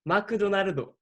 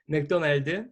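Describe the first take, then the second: First: It is said in a Japanese accent. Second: It is said in a Korean accent.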